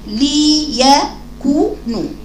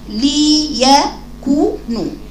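First: Each letter's vowel is fully completed separately. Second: The same.

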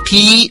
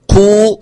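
First: The vowel after q is a pure ee. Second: The vowel after q is a pure oo. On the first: "لا أقول قي بيا" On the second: "ولا أقول قو يعني بواو"

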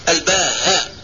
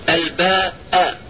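First: The word is said with an h sound. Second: The word is said with a glottal stop. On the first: "بالهاء" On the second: "بالهمس"

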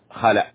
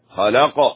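First: The final sound is a glottal stop. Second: The final sound is a bouncing q sound. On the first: The speaker calls it wrong. "يقلبون القاف همزة، هذا خطأ" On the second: The speaker calls it right. "اق اق، هكذا. والقاف لابد أن تنطق سليما"

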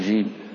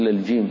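First: The j sound is voiceless and breathy. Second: The j sound is voiced. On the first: The speaker calls it wrong. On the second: The speaker calls it right.

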